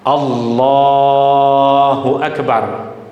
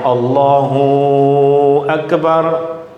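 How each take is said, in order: First: The la sound in Allahu is held long. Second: The hu sound is held long. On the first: The speaker calls it right. "yang boleh kita baca panjang hanya pada huruf lam pada lafzul jalalah" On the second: The speaker calls it wrong. "Hu tak boleh dibaca panjang"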